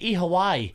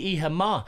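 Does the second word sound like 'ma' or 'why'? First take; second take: why; ma. First: The second word sounds like 'why'. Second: The second word sounds like 'ma'. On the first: This is the form the locals use. "They say Iha Wai" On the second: This is the form the locals do not use. "they don't say Iha Ma"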